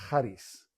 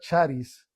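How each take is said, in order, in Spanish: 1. El CH es un sonido gutural al estilo griego. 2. El CH es un sonido 'ch' al estilo español. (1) "se pronuncia charis" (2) "en griego no se pronuncia charis"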